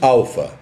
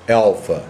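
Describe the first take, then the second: First: The first vowel is an open 'ah' sound. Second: The first vowel sounds almost like 'eh'. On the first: "nós falamos alfa" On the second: "uma pessoa que fale inglês simplesmente diga alfa, alfa. É quase um E para nós"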